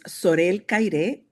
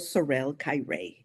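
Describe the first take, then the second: First: The name is pronounced with Spanish sounds. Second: The name is pronounced with English sounds. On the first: This is the original native pronunciation. "because I'm originally from Guatemala. I'm pronouncing it the way" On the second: This is adapted for people who don't speak Spanish. "or I would go Sorel Caire. for all of you guys that don't speak Spanish"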